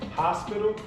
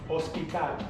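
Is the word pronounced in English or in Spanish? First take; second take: English; Spanish. First: It is pronounced with English sounds. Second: It is pronounced with Spanish sounds. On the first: "I'm going to pronounce it in English first" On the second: "and then I'm going to pronounce it in Spanish"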